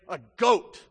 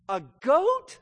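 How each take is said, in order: First: GOAT punched loud with a falling tune; indignant emphasis. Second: High, loud "goat" swooping up; incredulous father. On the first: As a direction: hit "goat" hard, as a demand. Repeats the older brother's angry demand. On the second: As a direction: question GOAT in mock astonishment. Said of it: "the fathers must be shaking his head". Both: Acted.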